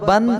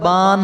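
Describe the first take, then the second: First: The vowel is kept short. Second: The vowel is drawn out long. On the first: The speaker calls it right. "बल्कि बा दो जबर बन ही पढ़ें" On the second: The speaker calls it wrong. "ऐसा ना हो कि"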